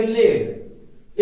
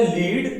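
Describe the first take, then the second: First: लेड with a short e, like "led"; the metal's pronunciation, लेड; pronounced led. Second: Emphatic long-vowel लीड; pronounced leed. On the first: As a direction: say लेड to rhyme with bed. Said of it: "इसको उच्चारण करेंगे लेड". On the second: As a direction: say लीड to rhyme with need. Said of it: "जबकि same sound है". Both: Shown as a demonstration.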